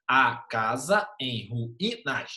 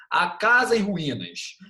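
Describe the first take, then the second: First: "A casa em ruínas" very slowly, a pause between syllables. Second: Said in the usual way. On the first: Shown as a demonstration. Teacher divides "A casa em ruínas" for class, syllable by syllable. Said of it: "Dividir a, a sílaba, dividir". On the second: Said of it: "Igual aqui".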